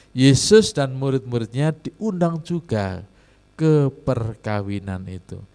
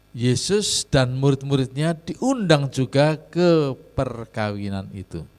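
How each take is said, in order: The two takes are said the same way.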